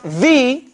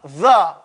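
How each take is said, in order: First: The vowel is a long 'ee' sound. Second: The vowel is a short, weak 'uh' sound. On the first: The next word starts with a vowel. "it's pronounced the when it's before a vowel" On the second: The next word starts with a consonant. "When it's pronounced before consonants"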